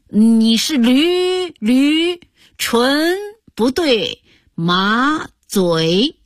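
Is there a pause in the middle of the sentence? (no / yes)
yes. The sentence breaks with a stuttering pause midway. It sounds like calling the listener a donkey. The speaker calls it wrong.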